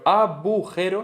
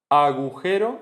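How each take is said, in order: First: The second consonant is a b sound. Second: The second consonant is a g sound. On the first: The speaker calls it wrong. "abujero está mal" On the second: The speaker calls it right. "agujero, está bien"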